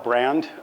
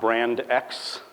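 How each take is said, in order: First: It is said as the single word brand. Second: It is said as two words, brand ex. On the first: The speaker calls it right. "I just call it brand" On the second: The speaker calls it wrong. "it's not brand X"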